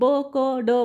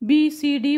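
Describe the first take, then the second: First: Each letter is said as its short sound. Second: Each letter is said with its full name. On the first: The speaker calls it right. "वाचताना आपण असं वाचणार आहोत ब क ड" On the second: The speaker calls it wrong. "Actual बी सी डी"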